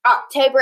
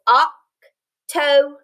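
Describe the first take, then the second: First: Said in the usual way. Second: Oct-o-ber very slow, each syllable apart; syllables split. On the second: Shown as a demonstration. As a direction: stretch October into three beats. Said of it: "It has three syllables".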